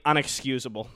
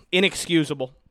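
First: Unexcusable, said with an un- at the start by mistake; the wrong word unexcusable, said as un-excusable; slip of the tongue. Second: Inexcusable, corrected to begin with in-; self-correction. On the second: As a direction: fix the slip and say Inexcusable with in- at the start. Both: Real, not acted.

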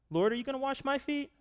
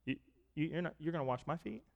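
First: Startled question. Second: Softer, hesitant disbelief, stumbling over the words; quiet reluctant protest. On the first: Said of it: "I think he said it with reluctance". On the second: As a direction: hold back as if embarrassed to be served. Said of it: "he said it with reluctance in his voice". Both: Retold or imitated.

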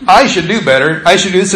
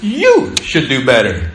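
First: "I" leaned on at the start; first-person "I" stressed. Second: "You" hit, lower and falling; stress on YOU. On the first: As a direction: put weight on "I" each time. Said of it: "It doesn't say". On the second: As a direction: punch "You" as the accusing word. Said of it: "It says". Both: Shown as a demonstration.

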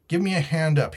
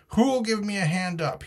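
First: Higher-pitched call for help; cried out. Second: Much higher pitch, mild roar; roared demand. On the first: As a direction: call out with a moderately raised voice. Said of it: "he cried". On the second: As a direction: cry out high, demanding help. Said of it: "he roared". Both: A narrator's reading.

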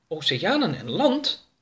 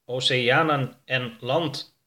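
First: Slow, lightly raised, curious question; little alien marvelling at a new planet; Oroka wondering aloud. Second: Slow, even spaceship computer voice; spaceship repeating. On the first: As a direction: ask it with a rising, wondering lilt. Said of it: "zei Oroka". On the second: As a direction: echo it back, slow and level. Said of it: "herhaalde E S M C kwadraat". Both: Acted.

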